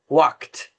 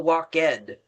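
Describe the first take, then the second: First: The ending adds no separate syllable. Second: The ending is said as a separate syllable. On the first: The speaker calls it right. "it's never pronounced ed" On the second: The speaker calls it wrong. "We don't say walk ed"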